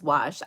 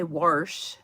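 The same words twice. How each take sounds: First: Said in the usual way. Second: "warsh" with an R before the sh. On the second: Retold or imitated. Quoting grandma's word, "warsh" with an added R. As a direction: say "warsh", adding an R after the vowel. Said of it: "She probably would say".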